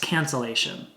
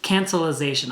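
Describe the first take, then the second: First: The word is said with four syllables. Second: The word is said with five syllables. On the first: The speaker calls it right. "It's cancellation" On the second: The speaker calls it wrong. "I've been saying that wrong"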